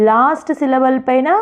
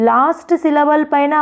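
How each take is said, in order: No difference in how they are said.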